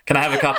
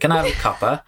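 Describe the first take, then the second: First: It is said in a normal English accent. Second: It is said in an Oliver Twist accent.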